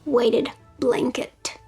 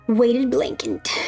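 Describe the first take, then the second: First: It is said with a standard adult pronunciation. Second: It is said with a childlike mispronunciation. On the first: It is the ordinary way to say it. The speaker calls it right. "I meant to say weighted blanket" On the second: It copies how a small child said it. The speaker calls it wrong. "That's how my daughter used to say it"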